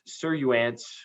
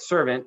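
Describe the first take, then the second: First: The word is sounded out following an odd spelling. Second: The word is pronounced in the ordinary modern way.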